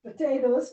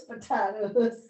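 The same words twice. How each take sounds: First: "Potatoes" said puh-TAY-toes; long AY in the middle of "Potatoes". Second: "potatoes" drawn out slowly as puh-TAH-does; slow, open AH in "potatoes". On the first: Student models the word for the teacher, "Potatoes" as puh-TAY-toes. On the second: Student gives the teacher the other version, "potatoes" as puh-TAH-does. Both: Shown as a demonstration. Student compares two pronunciations.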